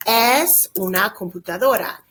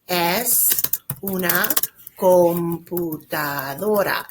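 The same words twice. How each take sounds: First: Said in the usual way. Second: Word by word, with pauses between; slow dictation. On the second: Shown as a demonstration. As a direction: spell it out slowly for learners, stretching "computadora". Teacher repeats it slowly for students.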